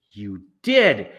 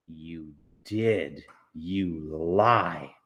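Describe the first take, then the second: First: Loud final verdict; insisting. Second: Low, firm counter; flat accusation. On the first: Amanda insists to Mars Bar, loud final verdict. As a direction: slam it down. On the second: Amanda contradicts Mars Bar, low firm accusation. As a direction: shut him down low and certain. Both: Acted.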